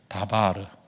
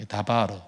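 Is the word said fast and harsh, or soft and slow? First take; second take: soft and slow; soft and slow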